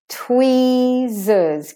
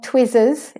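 First: The E vowel is held long. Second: The E vowel is cut short. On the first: The speaker calls it right. "Give the E its correct length" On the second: The speaker calls it wrong. "not tweezers"

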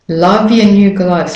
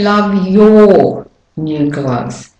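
First: The word 'your' is reduced to 'ya'. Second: The word 'your' is fully pronounced. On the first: The speaker calls it right. "The your becomes devolved" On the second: The speaker calls it wrong. "Now notice I don't say love your new gloves"

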